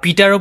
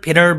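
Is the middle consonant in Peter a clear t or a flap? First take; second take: clear t; flap. First: The middle consonant is a crisp, clear t. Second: The middle consonant is a soft d-like flap. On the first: "আপনি পিটারও বলতে পারেন" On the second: "এইটিটা D এর মতো হয়ে যায়, ফ্ল্যাপটি"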